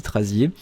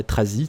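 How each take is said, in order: First: Trazier said as tra-zyay, ending in a yay sound; settling on a pronunciation. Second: Trazi said as tra-zee, no final ending sound; trying a pronunciation. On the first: Thanking the commenter, settling on tra-zyay for the name. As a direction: land on Trazier as tra-zyay, a bit tentative. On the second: Reading the commenter's name aloud, trying tra-zee. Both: Shown as a demonstration. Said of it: "Trazier, Tra-, Trazi".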